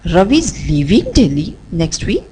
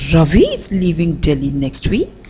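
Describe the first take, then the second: First: The stress falls on the word leaving. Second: The stress falls on the word Ravi. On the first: "we'll shift the stress on the word leaving" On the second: "Let's again shift the stress to Ravi"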